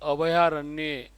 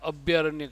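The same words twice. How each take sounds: First: The word is said carefully with every sound kept. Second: The word is said hastily with a sound squeezed out. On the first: The speaker calls it right. "नहीं, अभयारण्य" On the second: The speaker calls it wrong. "जल्दबाजी में बोलते हैं ना अपन, तो अभयारण्य कर देते हैं"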